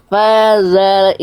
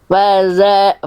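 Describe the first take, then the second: Both takes have the same delivery.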